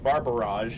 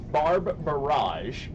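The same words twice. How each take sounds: First: The phrase is said very fast and slurred. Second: The phrase is said at a normal, clear pace.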